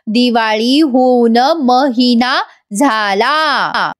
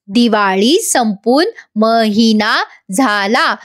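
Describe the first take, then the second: First: Slow, halting recital; struggling to speak. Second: Put-on slow, word by word, like to a small child; teaching slowly. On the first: Retold or imitated. Madam repeating after Gauri, slow and laboured. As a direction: drag each word out with effort. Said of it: "थोडं बोलायला त्रास होतोय". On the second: Gauri teaching Madam a sentence, slow and patient. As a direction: spell out each word for a learner. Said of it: "अगदी लहान लेकरासारखं समजवत".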